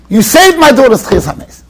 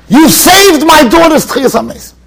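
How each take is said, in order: First: Said in the usual way. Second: Grateful exclamation. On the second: Retold or imitated.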